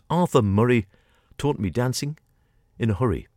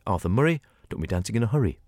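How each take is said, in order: First: The title is said at a normal pace. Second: The title is said quickly.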